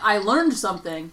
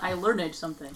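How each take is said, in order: First: Learned is said as one syllable. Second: Learned is said as two syllables. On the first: The speaker calls it right. "But it's like" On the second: The speaker calls it wrong. "It's not"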